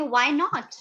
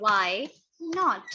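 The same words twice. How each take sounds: First: Said in the usual way. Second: "why... not", a clear pause between the words; teacher's slow repeat of "why not"; word-by-word dictation. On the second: Shown as a demonstration. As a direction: say "why" and "not" separately, slowly.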